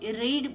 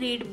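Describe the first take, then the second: First: The word is said with a short 'e' vowel. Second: The word is said with a long 'ee' vowel. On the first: The action happened in the past. "Past tense होईल" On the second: The action happens regularly now. "Present tense मध्ये आहे"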